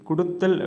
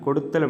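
First: The first vowel is 'u'. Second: The first vowel is 'o'. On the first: This is the everyday spoken form. The speaker calls it wrong. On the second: This is the formal written form. The speaker calls it right.

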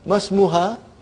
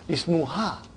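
First: The opening vowel drops and s links to ma. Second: The word starts with a clear i vowel. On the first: The word comes after another word in the sentence. "I say mas. Why mas? Because Hamzatul Wasal" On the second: The word starts the sentence. "And then we say ism. Because the ism is starting the sentence"

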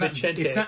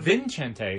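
First: The name has no n sound before the t. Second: The name has an n sound before the t. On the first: The speaker calls it right. "It's tough because it's Vicente" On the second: The speaker calls it wrong. "It's not Vincente"

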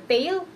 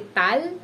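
First: The vowel is a long A sound. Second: The vowel is a short A sound. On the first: "or tail" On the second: "And we don't say tal"

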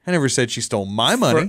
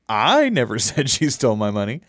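First: The stress is on the word 'my'. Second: The stress is on the word 'I'. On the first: She stole someone else's money. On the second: Someone else said it.

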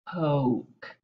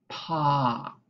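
First: The vowel is a long oh sound. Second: The vowel is a short ah sound. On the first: The speaker calls it wrong. "we're never going to be saying poke" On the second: The speaker calls it right. "It's always going to be pock"

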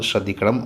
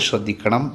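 Both takes have the same delivery.

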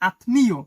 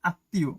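First: The m sound is clearly pronounced after the t. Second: The t is doubled and no m is heard. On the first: The speaker calls it wrong. "উচ্চারণটা অনেকে করবে আত্মীয়" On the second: The speaker calls it right. "উচ্চারণটা হবে আসলে আত্মীয়। ওই যে তয়ের দ্বিত"

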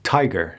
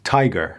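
The two takes are said the same way.

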